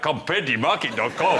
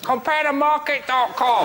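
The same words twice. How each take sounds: First: It is said in a put-on Nigerian accent. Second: It is said in a put-on Chinese accent. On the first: "if it was Nigeria" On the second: "if those meerkats had Chinese voices"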